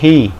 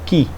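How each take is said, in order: First: It starts with a breathy sound from the throat. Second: It starts with a hard k sound. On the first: "esse som ele é meio aspirado, você puxa ele da, da garganta" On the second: "a forma portuguesada dele, que normalmente se utiliza"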